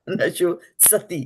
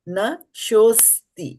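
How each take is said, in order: First: An extra 'a' vowel is inserted before 'ti'. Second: No vowel is inserted; 's' joins 'ti' directly. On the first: The speaker calls it wrong. "It is not nash, nasho sati" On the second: The speaker calls it right. "It is nashosti"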